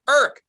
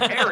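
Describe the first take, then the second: First: The name is squeezed into one short syllable. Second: The name is said with two full syllables. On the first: This is how his family said the name. "his sister and brother and mother would always go, Irk" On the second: This is how the neighborhood said the name. "Like, that's Eric"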